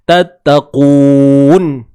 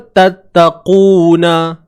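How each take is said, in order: First: The word ends on a bare n sound. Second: The word ends with a vowel after the n. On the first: This is the form used when stopping. "bila kita berhenti, nun baris atas ni dah tak terpakai dah. So nun ni mati" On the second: This is the original full form. "Nun ni asalnya tattaquna"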